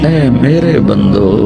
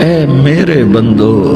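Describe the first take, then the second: The two takes are said the same way.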